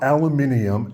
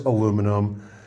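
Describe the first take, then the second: First: It is said with the British pronunciation. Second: It is said with the American pronunciation. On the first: The speaker calls it wrong. "The English at some point... started calling it aluminium" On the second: The speaker calls it right. "Historically, the correct name is aluminum"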